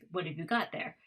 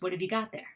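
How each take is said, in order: First: The words are said with full, careful vowels. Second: The words are said with schwa, reduced vowels.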